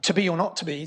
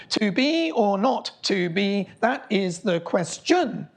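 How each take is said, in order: First: Said in the usual way. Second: Slow, every syllable of "To be or not to be" spaced out; counting syllables. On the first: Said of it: "this most famous line of Shakespeare". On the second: Shown as a demonstration. Lecturer slowly counting Shakespeare's syllables aloud. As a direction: read it slowly so each beat can be counted. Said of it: "So count the syllables".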